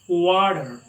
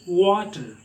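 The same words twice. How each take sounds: First: The middle consonant sounds like a soft d. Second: The middle consonant is a clear t sound. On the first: "They pronounce t as the first d" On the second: "We talk it water"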